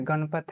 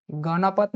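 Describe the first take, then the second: First: गणपत said as gan-pat, middle vowel dropped; गणपत in two syllables, gan-pat; गणपत clipped to gan-pat; correct pronunciation. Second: गणपत said as ga-na-pat, middle a fully sounded; गणपत in three syllables, ga-na-pat; गणपत with the middle vowel kept, ga-na-pat; wrong pronunciation. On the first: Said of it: "गणपत है". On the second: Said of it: "गणपत नहीं है". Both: Shown as a demonstration.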